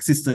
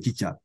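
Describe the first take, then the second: First: The word is said with s sounds. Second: The word is said with ch sounds. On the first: This is the original English form. "borrow words from English, like sister" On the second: This is the form adapted by a language without fricatives. "they'll say chicha"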